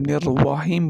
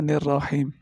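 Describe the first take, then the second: First: A w sound is heard after the r. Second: A plain r is heard with no w sound. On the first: The speaker calls it wrong. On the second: The speaker calls it right.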